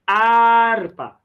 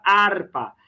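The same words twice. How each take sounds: First: HARPA with a long, higher AAR, silent H; stress on AR. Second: Said in the usual way. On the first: Shown as a demonstration. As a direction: call out "Harpa", holding the first syllable high. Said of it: "a mais forte é o ar". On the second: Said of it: "Olha a palavra harpa".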